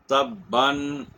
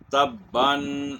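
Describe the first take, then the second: First: تباً said as tabban, rising at the end; reading with tanween. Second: تباً stretched very slowly as ta-ban, ending on a clear nasal n; slow drawn-out tanween. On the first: A teacher gives students an example word, read normally. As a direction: say tabban with the nasal n. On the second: The teacher repeats the word very slowly for students. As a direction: draw tabban out very slowly for learners. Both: Shown as a demonstration. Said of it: "ایک لفظ ہے".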